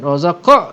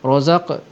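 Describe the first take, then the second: First: The final q bounces strongly with an added vowel. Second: The final q bounces only slightly. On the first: The speaker calls it wrong. "jangan kuat sangat, jangan sampai ada bunyi hamzah" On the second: The speaker calls it right. "sikit saja"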